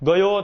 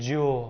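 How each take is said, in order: First: The word begins with a g sound. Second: The word begins with a j sound. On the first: This is the standard Gujarati form. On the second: This is the Charotar and North Gujarat dialect form.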